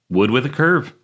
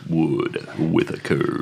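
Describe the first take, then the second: First: It is said at normal speed. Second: It is said slowly and drawn out.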